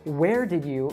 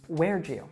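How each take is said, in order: First: The d and y stay separate and clear. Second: The d and y blend into j. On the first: "a D sound followed by a Y sound" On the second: "it becomes a J sound"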